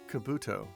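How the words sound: It is said with an English-style pronunciation. This is the official name of the character. "the way that it's quote-unquote supposed to be said"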